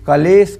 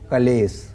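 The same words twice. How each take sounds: First: The word ends with an sh sound. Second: The word ends with an s sound. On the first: This is the standard form. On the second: This is the form as written in the text.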